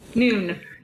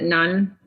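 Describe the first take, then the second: First: The vowel is long, rhyming with moon. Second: The vowel is short, rhyming with fun. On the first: The speaker calls it right. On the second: The speaker calls it wrong.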